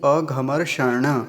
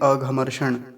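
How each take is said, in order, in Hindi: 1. अंतिम मूर्धन्य ण ध्वनि पूरी तरह बोली जाती है। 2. अंतिम मूर्धन्य ण ध्वनि छोटी करके बोली जाती है। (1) "ये इसको पूरा बोलेंगे" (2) "ऐसा नहीं बोलेंगे अघमर्षण, ऐसा नहीं"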